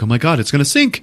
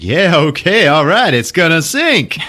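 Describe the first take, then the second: First: Higher-pitched mock dismay; alarmed realization. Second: Higher, louder mock elation; gleeful character. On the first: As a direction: voice a dawning alarm. Chilton realizes ship will sink. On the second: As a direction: crow it with put-on delight. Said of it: "then he starts laughing".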